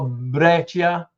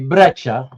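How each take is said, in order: First: The i is pronounced as its own sound. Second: The i is silent. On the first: The speaker calls it wrong. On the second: The speaker calls it right.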